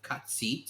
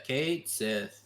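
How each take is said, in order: First: The name is said as 'Katsit'. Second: The name is said as 'Kate Sith'. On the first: This is the original Gaelic pronunciation. "There is an actual pronunciation because apparently it's a Gaelic uh word" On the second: This is how the game says it. "yeah, Kate Sith"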